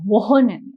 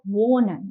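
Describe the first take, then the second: First: The h sound is pronounced strongly. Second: The h sound is soft and subtle. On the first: The speaker calls it wrong. "it shouldn't sound like wohnen" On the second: The speaker calls it right. "It sounds like wohnen. You know, it's subtle, it's smooth"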